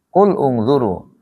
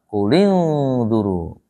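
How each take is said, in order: First: The two words are said separately, unjoined. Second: The words are joined with an added i vowel. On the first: This is ordinary reading. "kalau baca biasa mah enggak diwasol" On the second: This is Quran recitation. "Kul ungzuru harus dikasrohkan"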